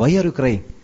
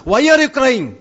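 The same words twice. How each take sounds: First: Said in the usual way. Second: "Why are you crying?" thrown out high and forceful; emphatic question. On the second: Acted. Repeats question forcefully as the point. ("Why are you crying?" ഉയർന്ന സ്വരത്തിൽ ഊന്നിച്ചോദിക്കുന്നു)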